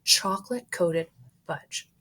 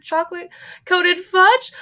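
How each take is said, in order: First: Said in the usual way. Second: High, loud shriek rising on fudge; screaming. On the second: Acted. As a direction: shriek chocolate-coated fudge in horror. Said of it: "screamed Missus Gloop".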